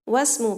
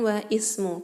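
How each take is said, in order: First: The words run together without the initial i sound. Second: The words are separate with the initial i sounded. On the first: The speaker calls it right. "perhatikan di situ wasmu bukan wa ismu" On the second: The speaker calls it wrong. "bukan wa ismu"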